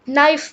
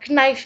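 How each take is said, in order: First: The word starts with an n sound, no k. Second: The word starts with a k sound before n. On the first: The speaker calls it right. "ये नाइफ बोला जाता है" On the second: The speaker calls it wrong. "नहीं"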